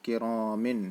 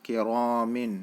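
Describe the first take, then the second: Both takes have the same delivery.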